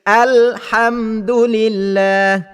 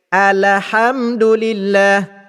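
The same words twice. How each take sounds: First: The L is held with no vowel after it. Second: The L is followed by an 'a' vowel. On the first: The speaker calls it right. "bunyi bacaan yang betulnya" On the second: The speaker calls it wrong. "membariskan lam yang bertanda sukun itu dengan baris di atas"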